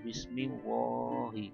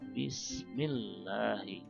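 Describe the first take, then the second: First: The L in the name is heavy and thick. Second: The L in the name is light and thin. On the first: The speaker calls it wrong. "bukan Bismillahi" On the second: The speaker calls it right. "jadi bacanya Bismillahi"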